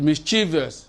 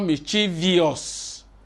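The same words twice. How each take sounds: First: No extra vowel comes before the ending. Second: An extra 'ee' sound comes before the ending. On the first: The speaker calls it right. "It's mischievous. There is no I there" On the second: The speaker calls it wrong. "It's not mischievous"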